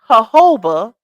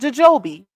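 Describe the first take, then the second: First: The word begins with an H sound. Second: The word begins with a J sound. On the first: The speaker calls it right. "You don't say the J" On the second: The speaker calls it wrong. "not jojobi"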